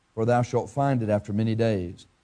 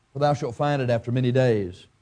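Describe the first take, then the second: No difference in how they are said.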